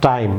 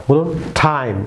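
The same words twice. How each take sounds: First: টাইম as learners wrongly say it; wrong time. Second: টাইম with an aspirated English T; টাইম said with a breathy English T; correct time. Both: Shown as a demonstration.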